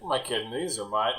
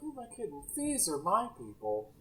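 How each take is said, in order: First: It is said in a sour, weary tone. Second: It is said in a sweet, fond tone.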